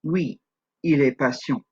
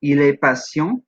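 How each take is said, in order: First: "Oui, il est patient." in French, falling at the end; downtone answer. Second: "Il est patient?" in French, slow, rising at the end; rising question tone. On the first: Teacher answering the French question, "Oui, il est patient." falling. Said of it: "with the downtones". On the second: Teacher asking the question in French, "Il est patient?" rising. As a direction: lift the last syllable of "Il est patient?" into a question. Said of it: "We ask the question". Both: Shown as a demonstration.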